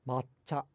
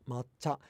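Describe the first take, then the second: No difference in how they are said.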